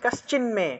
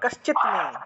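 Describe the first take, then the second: First: The consonant before 'me' is an n sound. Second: The consonant before 'me' is a t sound.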